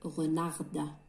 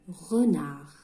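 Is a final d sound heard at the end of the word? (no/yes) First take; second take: yes; no. First: The final d sound is pronounced. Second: The final d sound is silent. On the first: The speaker calls it wrong. "on va pas dire renarde, on lit pas le d" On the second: The speaker calls it right. "la lettre D ne se prononce pas"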